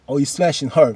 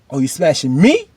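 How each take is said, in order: First: "her" stressed with a falling tune. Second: "me" jumps up in a questioning rise; stress on "me". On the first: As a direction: land on "her" and let it drop. Second half of the contrast. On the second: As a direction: hit "me" and swing it upward, challenging. Challenge contrasting me with her. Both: Retold or imitated.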